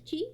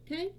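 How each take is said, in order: First: The word starts with a ch sound, like chee. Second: The word starts with k and rhymes with eye. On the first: "I will be pronouncing as Chi" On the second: "If you say it as Kai, that's fine too"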